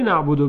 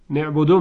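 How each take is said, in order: First: نعبدو said as "na'budu"; standard vowel. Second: نعبدو said as "ne'budu"; dialect vowel. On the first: Teacher shows what you cannot say, نعبدو as "na'budu". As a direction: say نعبدو with an open a. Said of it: "تو نمیتوانی نعبدو بگویی". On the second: Teacher shows what you say instead, نعبدو as "ne'budu". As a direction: front the first vowel of نعبدو to e. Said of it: "میگی". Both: Shown as a demonstration.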